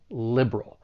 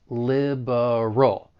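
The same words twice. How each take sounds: First: The word is said with two syllables. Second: The word is said with three syllables. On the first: "now we're left with just two syllables" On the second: "you may say it with three syllables"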